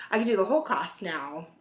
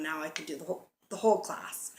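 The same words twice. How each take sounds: First: Said in the usual way. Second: Hiccups breaking the words; suppressing hiccups. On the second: Real, not acted. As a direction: talk through hiccups. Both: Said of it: "Sorry, I have the hiccups".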